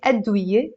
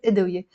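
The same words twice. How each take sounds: First: أدوية said with an opening a, "ad-wiye"; 另一种读法. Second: أدوية said with an opening i, "idwiye"; 个人读法. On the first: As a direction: open أدوية on "ad", not "id". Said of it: "You can, of course, say". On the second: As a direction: start أدوية on "id", not "ad". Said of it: "Personally, I pr-, pronounce it". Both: Shown as a demonstration.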